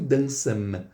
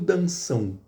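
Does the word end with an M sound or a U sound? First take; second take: M sound; U sound. First: The word ends with a closed M consonant. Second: The word ends with a nasal U glide. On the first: The speaker calls it wrong. "eu não pronuncio dançam" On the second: The speaker calls it right. "eu pronuncio dançam. Olha o som do U"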